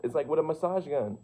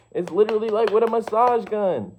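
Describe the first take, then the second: First: Said in the usual way. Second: Much higher and louder, bursting with excitement; excited shout. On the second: Real, not acted. To the viewer about vibration, an excited shout. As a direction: belt it out like a revelation.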